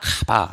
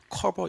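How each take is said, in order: First: It is said flatly as Korean ka-ba. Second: It is said with a rolled, English-like r. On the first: The speaker calls it right. "카바 이렇게 읽어요" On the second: The speaker calls it wrong. "커버 이렇게 읽는 거 아니에요, 어디서 혀를 굴리고 앉았어요?"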